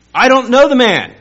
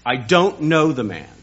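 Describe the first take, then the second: First: Very high, loud yelled denial; cursing, shouted denial; furious shout. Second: Firm denial. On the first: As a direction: scream it at them. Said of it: "began to call down curses". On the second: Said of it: "He denied it again with an oath". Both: Retold or imitated.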